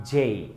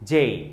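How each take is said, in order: The two takes are said the same way.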